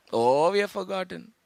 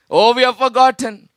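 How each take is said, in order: First: Much softer, lower rueful confession; softer, lower confession to the church; hushed admission. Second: Said in the usual way. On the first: Acted. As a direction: say it softly to yourself. Repeated, first take hushed.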